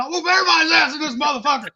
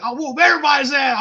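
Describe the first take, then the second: First: Fast, high mock yell; hammed-up drunk challenge, rushed; riled-up boast. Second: Higher, louder mock threat; retold drunk bragging, raised voice; riled-up boast. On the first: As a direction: rattle off the threat, louder. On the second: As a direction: puff up and yell the threat. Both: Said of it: "I was fucking riled up".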